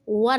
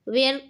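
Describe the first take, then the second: First: The vowel sounds like 'er', as in fur. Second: The vowel sounds like 'air', as in wear. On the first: The speaker calls it right. "वर इसका शुद्ध pronunciation है" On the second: The speaker calls it wrong. "वेयर अशुद्ध उच्चारण है"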